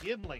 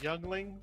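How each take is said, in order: First: The name is said like yimling. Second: The name is said like youngling. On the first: The speaker calls it right. "It's Yimling" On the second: The speaker calls it wrong. "I stupidly called it Youngling"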